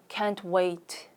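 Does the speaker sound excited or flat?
flat. The voice sounds flat and unexcited. The speaker is not really looking forward to it. The speaker calls it wrong. "기대되는 것 같지 않죠?"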